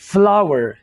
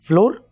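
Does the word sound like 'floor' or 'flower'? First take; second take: flower; floor. First: The word sounds like 'flower'. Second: The word sounds like 'floor'. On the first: The speaker calls it right. "बल्कि इसको हम कहेंगे फ्लावर" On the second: The speaker calls it wrong. "इसको हम फ्लोर नहीं बोलेंगे"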